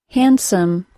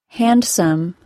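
Both takes have the same delivery.

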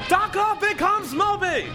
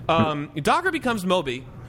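First: It is shouted in an old newsreel announcer voice. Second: It is said in an ordinary conversational voice.

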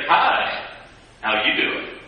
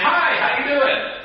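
First: It is said in a suggestive, flirtatious way. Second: It is said in a plain, friendly way.

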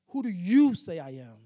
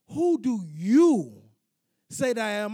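First: It is said at normal speed. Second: It is said slowly and deliberately.

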